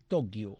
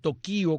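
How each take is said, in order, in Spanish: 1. El acento está en la primera sílaba. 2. El acento está en la segunda sílaba. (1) "La sílaba que llega a la fuerza de pronunciación es to" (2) "Algunos dicen Tokio con tilde en la I, pero eso es una incorrección"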